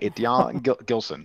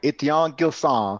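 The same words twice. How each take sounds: First: The name has an anglicized, English-like pronunciation. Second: The name has a French pronunciation. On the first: This is a habitual, mixed-language pronunciation. The speaker calls it wrong. "but I call him Etienne Gilson. That's my franglais" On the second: This is the proper pronunciation of the name. The speaker calls it right. "I should probably be calling him Etienne Gilson"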